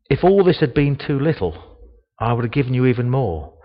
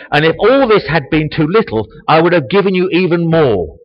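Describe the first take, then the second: First: Calm tone. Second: Loud, high proclamation with rising force; raised voice. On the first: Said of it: "he said it in a calm tone". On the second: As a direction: thunder it as God's rebuke. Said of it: "did Nathan raise his voice". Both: Shown as a demonstration.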